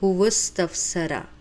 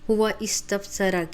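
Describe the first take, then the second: First: The two words run together into one linked unit. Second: The two words are said separately, not linked. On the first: The speaker calls it right. "इसको हम इस तरह जॉइन करेंगे" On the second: The speaker calls it wrong. "हुआ इस्तफ़सरा की बजाय"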